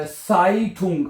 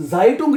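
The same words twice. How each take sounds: First: साइटुंग said slowly with a clear S sound at the start; साइटुंग with an S, as the German word for newspaper; correct German pronunciation. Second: जाइटुंग with a Z sound at the start, shown as the mistake; जाइटुंग as students wrongly read it; wrong pronunciation. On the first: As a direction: stretch out साइटुंग, starting with S not Z. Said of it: "अखबार को कहते हैं साइटुंग". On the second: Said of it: "जाइटुंग नहीं पढ़ना". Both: Shown as a demonstration.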